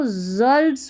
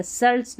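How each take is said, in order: First: जल्ट्स starting with a buzzed z, "zults"; voiced z opening on जल्ट्स; correct z sound. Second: सल्ट्स starting with a hissed s, "sults"; voiceless s opening on सल्ट्स; wrong s sound. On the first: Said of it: "को जल्ट्स पढ़ेंगे". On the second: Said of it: "सल्ट्स नहीं पढ़ना". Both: Shown as a demonstration.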